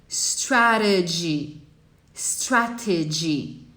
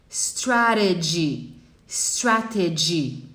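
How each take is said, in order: Both takes have the same delivery.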